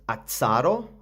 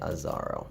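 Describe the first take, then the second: First: The middle consonant is said as 'ts'. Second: The middle consonant is said as 'z'. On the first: "Like we say pizza with two Z's" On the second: "Everybody online says Azaro"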